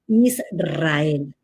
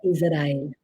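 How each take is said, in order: First: The r is a strong rolled trill. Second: The r is a soft single tap. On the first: The speaker calls it right. "decir en español correcto Israel" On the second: The speaker calls it wrong. "no Israel"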